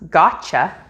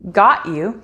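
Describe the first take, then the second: First: The word 'you' is reduced to a 'cha' sound. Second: The word 'you' is said fully and separately.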